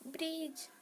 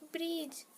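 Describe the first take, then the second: No difference in how they are said.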